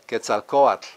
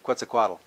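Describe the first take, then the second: First: The name is pronounced carefully. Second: The name is pronounced sloppily. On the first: The speaker calls it right. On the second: The speaker calls it wrong.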